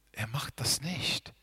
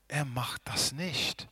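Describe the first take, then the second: First: Hushed whisper for emphasis. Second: Slow, unvoiced whisper, Er stressed; hushed slow whisper. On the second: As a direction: whisper Er macht das nicht slowly, leaning on Er. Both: Shown as a demonstration.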